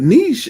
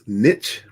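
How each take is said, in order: First: The word is said the French way, like leash. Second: The word rhymes with pitch. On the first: This is the original French pronunciation. "but niche is actually French" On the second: This is the usual American pronunciation. "Predominantly in the U S, uh, we use niche, rhyming with pitch"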